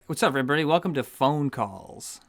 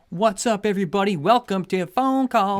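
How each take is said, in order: First: The greeting sounds flat and unenthused. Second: The greeting sounds excited but quiet. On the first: "You don't sound enthused at all" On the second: "you sound like you're doing an excited thing"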